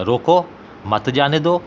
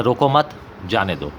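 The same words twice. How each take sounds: First: "रोको" set apart, rising, then "मत जाने दो" in one go; pause after रोको. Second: "रोको मत" together and rising, then lower "जाने दो"; pause after मत. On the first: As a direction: clear break before मत, which joins जाने दो. ("रोको" पर रुककर "मत जाने दो" एक साथ) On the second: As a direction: break after मत, before जाने दो. ("रोको मत" एक साथ, फिर रुककर "जाने दो") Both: Shown as a demonstration. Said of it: "दरमियान में सख्ता इस्तेमाल नहीं".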